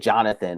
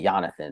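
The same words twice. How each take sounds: First: The name begins with a J sound. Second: The name begins with a Y sound. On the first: It is the usual modern form. "when we say Jonathan" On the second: It is the form people do not use. "we don't say"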